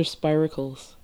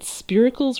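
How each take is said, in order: First: "spiracles" starting like "spy"; long-i pronunciation. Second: "spiracles" starting like "spirit"; short-i pronunciation. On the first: Host offers author the other option, "spiracles" said SPY-ruh-kulls. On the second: Host asks author how to say the word, "spiracles" with a short i. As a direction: say "spiracles" as SPEER-uh-kulls. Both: Shown as a demonstration. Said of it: "how do you pronounce".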